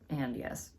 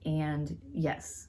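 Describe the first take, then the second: First: The yes sounds unenthusiastic. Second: The yes sounds enthusiastic.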